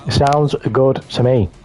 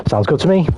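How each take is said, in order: First: Slower, savoured repeat; slow drawn-out. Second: Lilting higher sing-song agreement; bright up-pitched sounds good. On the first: Repeating his agreement about the burger, slow and drawn out. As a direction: draw the words out lazily. Repeats the same reply differently. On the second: Happy to accept the burger, sing-song high. Cheerful reply to burger offer. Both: Pretend.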